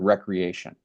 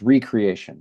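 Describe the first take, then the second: First: The word is said as one ordinary word. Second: The word is split, with re- set apart. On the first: Leisure or play. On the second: Creating something again.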